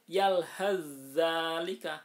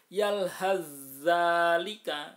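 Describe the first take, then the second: First: The first consonant merges into a doubled next one. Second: The same.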